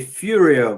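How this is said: The name is said with an American pronunciation. The speaker calls it wrong. "You Americans say Furio"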